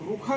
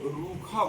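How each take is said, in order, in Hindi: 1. पहला स्वर छोटा है। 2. पहला स्वर लंबा है। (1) "नहीं कहते हैं" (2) "बोलते हैं"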